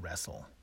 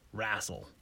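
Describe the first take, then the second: First: The word is said in a plain, standard accent. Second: The word is said in a Southern US accent. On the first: The speaker calls it wrong. "Not wrestle" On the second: The speaker calls it right. "if we were from the South, we'd say we wrestle"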